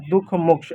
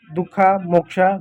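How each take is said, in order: First: दुख, मोक्ष at normal pace with no final vowel; plain Hindi pronunciation. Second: दुखा, मोक्षा slowly, with a clear final "a" on each word; spelling-style reading. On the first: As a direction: say दुख and मोक्ष the ordinary Hindi way, ending on the consonant. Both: Shown as a demonstration. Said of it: "अह की जो मात्रा होती है AH होता है".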